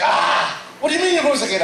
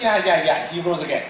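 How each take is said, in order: First: Mock-aghast, pitch shooting up; incredulous. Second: Said in the usual way. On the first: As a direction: imitate shocked listeners demanding an explanation. Listeners' shocked reaction, acted out.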